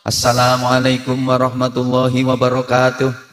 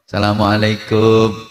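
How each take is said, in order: First: It is said in an MC's announcing style. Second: It is said like calling at someone's house.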